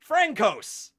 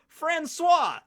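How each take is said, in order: First: The name is said as spelled, ending in s. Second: The name is said the French way. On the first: The speaker calls it wrong. "that's how you pronounce that" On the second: The speaker calls it right. "That's a French name"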